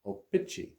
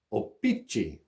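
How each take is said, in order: First: O-Pee-Chee said as oh-pee-chee, clear ch in the middle; O-Pee-Chee ending in a crisp chee; corrected pronunciation. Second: O-Pee-Chee with a shee ending; first try at the name. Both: Shown as a demonstration. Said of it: "or actually it's more like O-Pee-Chee".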